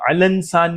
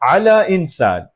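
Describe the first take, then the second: First: The two words run together without a glottal stop. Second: A glottal stop separates the two words. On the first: The speaker calls it wrong. "हमज़ा साइलेंट नहीं हुआ, अलंसान नहीं" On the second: The speaker calls it right. "हम ये हमज़ा प्रॉपर बोल रहे हैं, मुकम्मल।"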